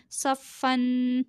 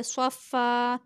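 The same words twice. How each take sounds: First: Said in the usual way. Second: स्वफ़ा ending on a long open aa, no final n; स्वफ़ा with "fan" turned into "faa"; pausal ending. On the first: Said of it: "वक्फ करेंगे". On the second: Shown as a demonstration. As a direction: stop on स्वफ़ा, drawing out the last vowel. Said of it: "इसे पढ़ेंगे स्वफ़ा".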